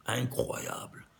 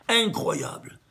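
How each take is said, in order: First: A hushed whisper of amazement; awed whisper. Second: Said in the usual way. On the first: Real, not acted. Teacher marvelling at the number to his students, whispered. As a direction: breathe the word out, almost to yourself.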